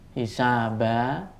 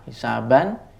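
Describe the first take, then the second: First: The word ends with a long a vowel. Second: The word ends with an n sound.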